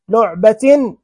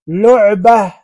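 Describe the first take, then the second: First: The word ends in a t sound with a vowel. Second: The word ends in a soft h sound. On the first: "متحركة" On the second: "ساكنة"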